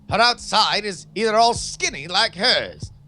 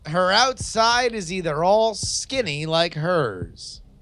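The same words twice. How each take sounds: First: It is read in a put-on Victorian accent. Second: It is read in his normal plain voice.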